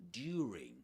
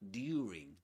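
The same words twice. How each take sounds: First: It uses an older, conservative British pronunciation. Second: It uses an older, conservative British pronunciation.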